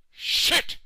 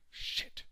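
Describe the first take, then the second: First: Sudden loud outburst of panic; shouted curse. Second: Hushed, voiceless curse; muttered curse. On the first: Stuck president cursing in panic, shouted. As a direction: let the swear explode. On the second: Stuck president cursing to himself, hushed. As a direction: swear softly under your breath. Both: Acted.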